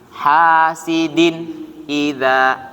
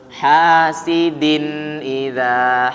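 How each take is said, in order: First: There is a short pause between the words. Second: The words run together without any pause. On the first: The speaker calls it wrong. "Kalau ada jeda masih salah" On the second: The speaker calls it right. "Tapi jangan ada jeda, lihat"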